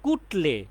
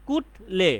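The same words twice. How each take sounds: First: Said in the usual way. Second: "কুটলে" split as কুট, pause, লে; split into syllables. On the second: Shown as a demonstration. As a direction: break "কুটলে" into two separate beats, কুট and লে. ("কুটলে" ভেঙে কুট, লে আলাদা করে) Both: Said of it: "কুট এবং লে পাচ্ছি".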